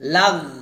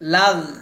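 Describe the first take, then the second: No difference in how they are said.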